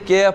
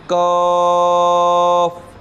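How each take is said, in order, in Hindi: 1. अक्षर का नाम 'ai' स्वर के साथ बोला जाता है। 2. अक्षर का नाम लंबे 'aa' स्वर के साथ बोला जाता है। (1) "कैफ पढ़ाते हैं वो दुरुस्त नहीं है" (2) "ये वाला जो दूसरा वाला हरूफ है काफ काफ काफ"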